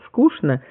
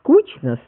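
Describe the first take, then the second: First: It is said with the older standard pronunciation. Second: It is said with today's leading standard pronunciation. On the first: This is no longer the main standard form. "в отличие от" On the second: This is now the main standard form. "стало ... ведущим вариантом нормы"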